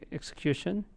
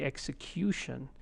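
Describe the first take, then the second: First: The stress is not on the third syllable. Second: The stress falls clearly on the third syllable. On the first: The speaker calls it wrong. "So it's not going to be execution" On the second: The speaker calls it right. "that's the vowel right before the suffix"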